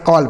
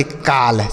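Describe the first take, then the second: First: कॉल with a rounded aw vowel; correct pronunciation. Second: काल with a plain long aa vowel; wrong pronunciation. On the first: Teacher shows pupils how to read it, correctly pronounced. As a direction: say कॉल with aw, not plain aa. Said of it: "इसे आप कॉल पढ़ेंगे". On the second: Teacher warns pupils how not to read it, mispronounced. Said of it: "इसे आप ऐसे नहीं पढ़ेंगे". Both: Shown as a demonstration.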